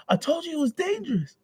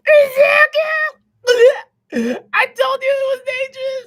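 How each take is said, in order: First: Mother, lighter. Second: Much higher, louder, sobbing shriek; crying mother. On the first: Bakugo's mom scolding, lighter falsetto repeat. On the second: Bakugo's mom screaming at her son, sobbing shriek. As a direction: wail it like a frantic mom. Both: Acted. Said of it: "that was Bakugo's mom".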